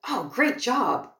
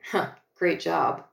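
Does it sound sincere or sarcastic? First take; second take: sincere; sarcastic. First: It sounds sincere and genuinely pleased. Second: It sounds sarcastic and unimpressed.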